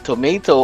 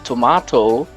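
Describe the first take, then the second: First: It is said with a Filipino accent. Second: It is said with a British accent.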